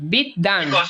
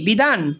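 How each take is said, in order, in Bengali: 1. মাঝের ব্যঞ্জনটি দুইবার উচ্চারিত হয়। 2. মাঝের ব্যঞ্জনটি একবার উচ্চারিত হয়। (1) "এই যে এখানে দ হচ্ছে দুইবার উচ্চারণ" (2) "আমি কি বিধান বলি"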